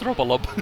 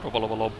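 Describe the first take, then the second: First: The name has three syllables, said once through. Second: The name has five syllables, with repeated parts. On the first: The speaker calls it right. "it's Robolob" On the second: The speaker calls it wrong. "That's not his name"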